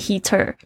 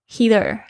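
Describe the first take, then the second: First: The t is pronounced as a clear t. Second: The t is flapped, like a quick d. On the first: "你念heater 也可以" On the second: "有时候那个t 呢夹在两个元音之间会念成这个了的声音。"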